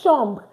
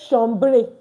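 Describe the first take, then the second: First: The word ends without a final vowel sound. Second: The word ends with an added final vowel sound. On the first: The speaker calls it right. "I said chambre. ... We don't pronounce this E" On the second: The speaker calls it wrong. "I didn't say chambre"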